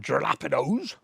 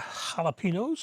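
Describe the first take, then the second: First: It is said in a Bristol accent. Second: It is said in the speaker's usual accent.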